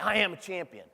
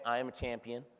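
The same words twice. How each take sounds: First: It is said with strong passion and energy. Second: It is said flatly with no energy. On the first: The speaker calls it right. "You got to read it with passion" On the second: The speaker calls it wrong. "if you read this with no energy"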